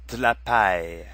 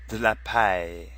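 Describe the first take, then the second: First: The vowel in de is dropped. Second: The same.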